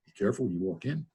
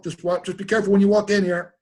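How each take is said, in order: First: Quick, much softer mocking repeat; wry inner echo. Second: Imitating Richard calling out higher; Richard's warning. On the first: The speaker silently mocking Richard's warning, quick soft mutter. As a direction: mutter the warning back under your breath, quickly. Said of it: "I thought". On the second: Richard warning his friend at the door, high mock call. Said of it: "Richard goes".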